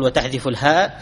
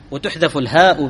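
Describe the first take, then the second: First: وتحذف said wa-taḥdhifu, with a then i; active vowelling. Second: وتحذف said wa-tuḥdhafu, with u then a; passive vowelling. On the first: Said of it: "هذا وهذا يصح". (نطق وتحذف مبنيًا للمعلوم بفتح التاء وكسر الذال) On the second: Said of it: "أو تقول". (نطق وتحذف مبنيًا للمجهول بضم التاء وفتح الذال) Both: Shown as a demonstration.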